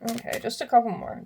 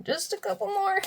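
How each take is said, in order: First: Said in the usual way. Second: High sing-song repeat; playful high-pitched singsong. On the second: Real, not acted. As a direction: lilt it up, much higher.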